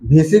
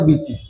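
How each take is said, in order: First: The first consonant is a breathy, aspirated bh. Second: The first consonant is a plain, unaspirated b. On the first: This is the standard way of saying it. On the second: This is how people from Mymensingh say it.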